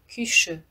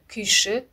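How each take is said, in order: First: It is pronounced differently from its spelling. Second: It is pronounced exactly as it is spelled. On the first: "Произносить лучше" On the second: "Пишется"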